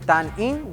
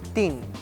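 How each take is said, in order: First: It is said as two full syllables. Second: It is shortened into a single syllable. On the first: "En vez de decir tan in" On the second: "decimos tin"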